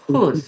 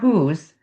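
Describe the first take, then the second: First: The h is a velar fricative sound. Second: The h is a glottal breath sound. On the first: The speaker calls it right. "it's going to be whose" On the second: The speaker calls it wrong. "it's not whose"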